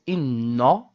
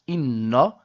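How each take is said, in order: The two takes are said the same way.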